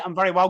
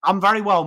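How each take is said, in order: First: Said in the usual way. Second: "very" hit louder and held; "very" pressed harder on the first go; stress on very. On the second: Real, not acted. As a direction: lean into "very" with a firm fall.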